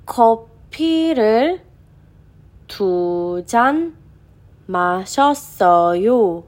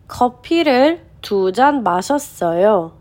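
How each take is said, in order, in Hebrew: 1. המשפט נקרא בקצב איטי יותר. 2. המשפט נקרא בקצב מהיר יותר.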